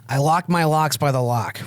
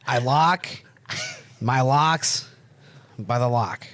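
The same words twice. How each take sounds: First: It is said fast. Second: It is said slowly.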